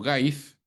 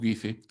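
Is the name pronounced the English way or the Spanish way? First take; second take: English; Spanish. First: The name is pronounced the English way. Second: The name is pronounced the Spanish way. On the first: "Algunos le dicen Gais" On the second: "nosotros en el Perú ya lo hemos castellanizado"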